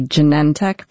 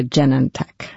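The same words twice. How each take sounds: First: "Genentech" as juh-NEN-tek; second-syllable stress. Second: "Genentech" as JEN-en-tek; first-syllable stress. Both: Shown as a demonstration. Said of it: "People say both".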